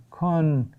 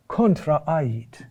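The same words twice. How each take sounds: First: Contraait broken up as CON, TRA, A-IT with pauses; syllable by syllable. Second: Contraait run together, accent marked by a long vowel; accented Latin word. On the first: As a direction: spell out Contraait slowly in separated syllables. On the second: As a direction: say Contraait as one connected, carefully stressed word. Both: Shown as a demonstration. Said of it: "The accent is there".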